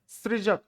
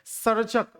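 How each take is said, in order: First: The word begins with the syllable 'sri'. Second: The word begins with the syllable 'sar'. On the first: The speaker calls it wrong. "सृजक तो अशुद्ध शब्द है" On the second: The speaker calls it right. "शुद्ध शब्द क्या होता है?"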